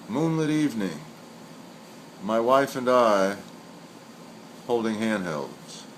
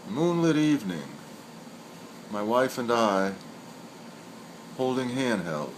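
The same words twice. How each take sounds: The two takes are said the same way.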